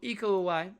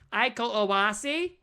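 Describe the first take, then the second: First: The name is said carefully, close to native pronunciation. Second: The name is said in a mangled Midwestern accent. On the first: The speaker calls it right. "so that I could say it that way" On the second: The speaker calls it wrong. "like a Midwestern mom"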